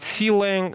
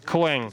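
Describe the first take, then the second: First: The C is said as a separate letter. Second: The name is said as one single syllable. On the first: The speaker calls it wrong. "some people call it C-Lang. Uh, trust me, this is a mistake" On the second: The speaker calls it right. "the right pronunciation is Clang"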